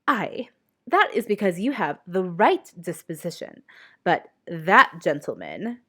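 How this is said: It is read in a ridiculous Mrs Bennet voice.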